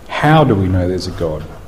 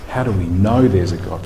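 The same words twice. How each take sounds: First: The stress falls on the word "how". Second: The stress falls on the word "know". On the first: It asks by what mechanism belief in God is accepted. "what's the physical or psychological or neurological mechanism" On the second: It asks how anything can be known at all. "how do we know anything?"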